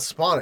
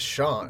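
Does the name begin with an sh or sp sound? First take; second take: sp; sh. First: The name begins with an sp sound. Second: The name begins with an sh sound. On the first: The speaker calls it wrong. "it's not Spawn" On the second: The speaker calls it right. "the P just sounds like an H"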